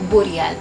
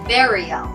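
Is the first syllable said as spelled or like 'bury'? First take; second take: as spelled; like bury. First: The word is pronounced just as it is spelled. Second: The first syllable sounds like the word 'bury'. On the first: The speaker calls it wrong. "Kung anong bigkas siyang sulat" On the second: The speaker calls it right. "Ang tamang bigkas sa salitang ito ay burial"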